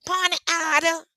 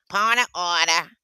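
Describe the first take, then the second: First: High-pitched mocking imitation; shrill-pitched mock objection; Candace. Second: Forceful mimicry at normal pitch; mock official's objection; Liddell. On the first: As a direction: mimic her, pitched way up. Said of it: "That's the other one, Candace". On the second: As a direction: imitate a council member calling it out. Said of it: "That's Liddell".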